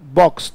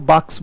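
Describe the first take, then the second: First: The vowel is a rounded 'o' sound. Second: The vowel is an open 'a' sound.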